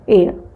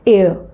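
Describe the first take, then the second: No difference in how they are said.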